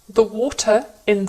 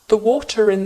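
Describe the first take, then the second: First: The words are separate with no R sound. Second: An R sound links the two words together.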